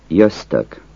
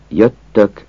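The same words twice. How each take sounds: First: Jöztök with a z before the t; folksy jöztök with z; colloquial jöztök. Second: Jöttök with a long double t; jöttök with tt as written; standard jöttök. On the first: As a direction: say jöztök as a z-t blend. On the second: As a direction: say jöttök with a held tt. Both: Shown as a demonstration. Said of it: "Azt a kiejtés változatot".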